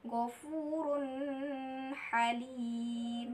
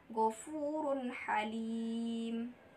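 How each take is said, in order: First: The n sound is blended into the next sound. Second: The n sound is pronounced clearly and separately. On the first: The speaker calls it wrong. "jangan dibaca ghafurun halim, salah" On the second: The speaker calls it right. "Bacaan yang benar adalah ghafurun halim"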